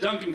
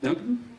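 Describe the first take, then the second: First: The name is said boldly and confidently. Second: The name is mumbled hesitantly, like a question. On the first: The speaker owns his name proudly. The speaker calls it right. "I wish I could just own it, head up like a gymnast" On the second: The speaker lacks confidence in his own name. The speaker calls it wrong. "I mumble, and I don't have the best self-esteem"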